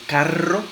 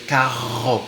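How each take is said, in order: First: The r is made with the tongue tip. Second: The r is made at the back of the mouth. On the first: "con la punta de la lengua" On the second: "con la parte de atrás"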